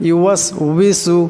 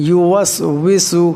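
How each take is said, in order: No difference in how they are said.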